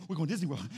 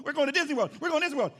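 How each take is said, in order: First: Said in the usual way. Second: Higher, louder chant of "We're going to Disney World"; excited kid. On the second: Retold or imitated. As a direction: bounce with a six-year-old's thrill. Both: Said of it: "my adrenaline was pumping".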